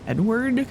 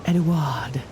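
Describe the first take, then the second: First: The name is said like plain English Edward. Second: The name is said in a fancier, foreign style. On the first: "pronounced like Edward" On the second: "Like fancy Edward"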